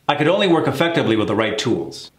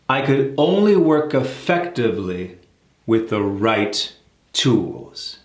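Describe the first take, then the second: First: The sentence is spoken quickly. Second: The sentence is spoken slowly. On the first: "I'm gonna say it fast" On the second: "let's break that down"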